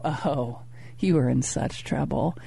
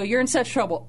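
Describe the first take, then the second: First: Low, soft teasing threat, much lower and softer; mock menacing murmur. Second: Said in the usual way. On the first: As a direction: tease her with a hushed mock warning. Playful threat to wife in story.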